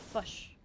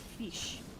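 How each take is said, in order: First: The word is said with a New Zealand vowel. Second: The word is said with an Australian vowel. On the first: "In a broad Kiwi accent, the word's like fush" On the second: "In a broad Australian English, the word fish sounds more like fish"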